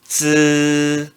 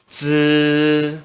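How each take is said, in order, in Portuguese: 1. O tom fica alto e estável. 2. O tom fica alto e estável.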